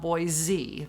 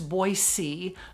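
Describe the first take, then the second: First: The middle consonant is a Z sound. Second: The middle consonant is an S sound. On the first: The speaker calls it wrong. "not Boise" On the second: The speaker calls it right. "There's no Z sound in the name"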